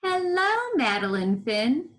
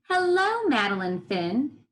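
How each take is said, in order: First: High friendly hello, smiling; smiling librarian voice. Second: Smiling greeting. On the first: Shown as a demonstration. Teacher models the smiling librarian's hello. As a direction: model a smiling greeting for the class. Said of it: "say that like the librarian who's smiling". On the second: Acted. Librarian greets Madeline, smiling warmly. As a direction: welcome her with a smile. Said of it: "She's smiling".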